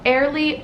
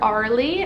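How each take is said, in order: First: The first vowel sounds like 'air'. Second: The first vowel sounds like 'ar'.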